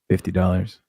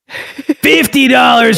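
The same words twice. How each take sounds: First: It is said in a soft, seductive voice. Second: It is said in a loud, angry voice. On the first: The speaker calls it wrong. "you're going with a sexual voice" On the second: The speaker calls it right. "You need to be angry"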